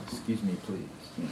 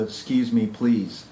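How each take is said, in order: First: A soft, lightly mocking prim "Excuse me please"; mock genteel politeness. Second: Said in the usual way. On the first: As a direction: murmur it like a township joke about prim manners. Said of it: "referred to them as the "excuse me please" class". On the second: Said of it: "referred to them as the".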